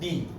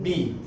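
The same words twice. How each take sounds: First: The B is said the English way, voiced. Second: The same.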